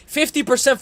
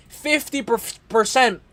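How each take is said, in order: First: Said in the usual way. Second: Stumbling on "percent", first syllable repeated; slow "Fifty percent" that trips on "per-"; stuttering. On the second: Real, not acted. Analyst tripping over a fight statistic, stuttering. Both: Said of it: "I'm stuttering".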